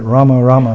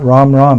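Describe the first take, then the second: First: The final vowel of each word is pronounced. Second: The final vowel of each word is dropped. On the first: The speaker calls it right. "but Rama Rama" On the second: The speaker calls it wrong. "not Ram Ram"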